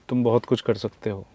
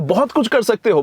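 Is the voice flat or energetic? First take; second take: flat; energetic. First: It is said flatly, without enthusiasm. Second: It is said with energy and enthusiasm.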